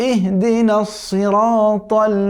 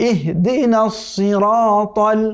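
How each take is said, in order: No difference in how they are said.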